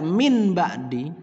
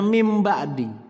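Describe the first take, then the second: First: The first word ends with an n sound. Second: The first word ends with an m sound. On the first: The speaker calls it wrong. "Ketika dia dibaca min ba'di, ... maka membaca Al-Qur'annya salah" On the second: The speaker calls it right. "maka dibacanya mim ba'di"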